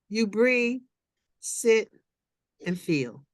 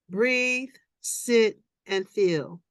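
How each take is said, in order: First: Breathe, sit, feel with long pauses; slow measured phrasing. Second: Each word set apart by pauses; gentle repeated instruction; repeated slow steps. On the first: Acted. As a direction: pause between each word. Reading slow meditative instruction. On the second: Shown as a demonstration. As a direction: echo the steps slowly. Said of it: "repeats as a demonstration".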